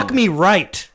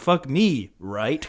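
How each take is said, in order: First: No pause, said as one flat statement. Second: A pause after 'me', ending like a question. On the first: It is a command. The speaker calls it right. "I want you to put a period and remove the comma" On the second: It asks for confirmation. The speaker calls it wrong. "you're saying "fuck me," right? Question mark"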